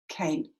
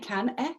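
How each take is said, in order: First: The final e is silent; one syllable. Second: The final e is sounded as an extra syllable. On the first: The speaker calls it right. "It's final silent E... pronounce that A as its name" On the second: The speaker calls it wrong. "Do we say can e? ... No, we don't. It's not representing a sound"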